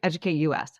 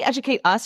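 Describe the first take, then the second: First: US is spelled out as two letters. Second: US is said as the word 'us'. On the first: The country is the one being educated. "or Educate U S?" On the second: The listener is asked to educate themselves. "Do you say Educate Us"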